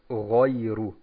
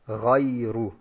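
First: The first vowel is rounded toward an O. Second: The first vowel stays unrounded without an O. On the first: The speaker calls it wrong. "falsch wäre es, wenn man sagt" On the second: The speaker calls it right. "richtig ist es, wenn man sagt"

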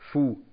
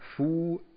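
First: The vowel is short. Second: The vowel is long. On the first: "wenn wir kurz lesen, lesen wir Fu" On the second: "wenn wir lang lesen, lesen wir Fu"

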